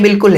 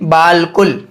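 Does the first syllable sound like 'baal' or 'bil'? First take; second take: bil; baal. First: The first syllable has a short 'i' vowel. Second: The first syllable has a long 'aa' vowel. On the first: The speaker calls it right. "बल्कि ये बिल्कुल है" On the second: The speaker calls it wrong. "आपके पढ़ने में ऐसा आएगा जैसे बालकुल"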